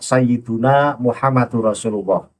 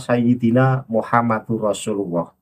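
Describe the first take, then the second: First: The vowel after sayyid- is u. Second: The vowel after sayyid- is i. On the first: The speaker calls it right. "yang lebih tepat dibaca" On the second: The speaker calls it wrong. "[name] membaca"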